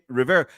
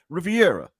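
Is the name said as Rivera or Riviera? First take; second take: Rivera; Riviera. First: The name is said as Rivera. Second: The name is said as Riviera. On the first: The speaker calls it right. "It says it on their name tape" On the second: The speaker calls it wrong. "Rivera is not Riviera"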